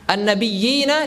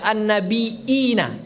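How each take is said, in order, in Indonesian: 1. Kata tersebut memiliki bunyi y yang ganda, tanpa hamzah. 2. Kata tersebut memiliki hamzah sebagai ganti y.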